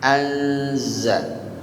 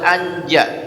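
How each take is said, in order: First: The consonant after the n is z. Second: The consonant after the n is j. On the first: The speaker calls it right. "Intinya zai ini z" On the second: The speaker calls it wrong. "tidak boleh anja"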